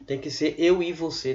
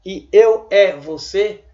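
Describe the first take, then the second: First: Tem que ser eu e você with the e reduced to i; correct e as i. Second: E eu é você with a clear open é instead of i; wrong e sound. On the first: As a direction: say eu i você, e turned into i. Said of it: "Tem que ser eu e você, transformando E em I". (pronúncia correta, e como i) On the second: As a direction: say eu é você sounding the letter E fully. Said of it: "se você pronunciar a letra E, vai ficar eu é você". (pronúncia errada com é aberto) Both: Shown as a demonstration.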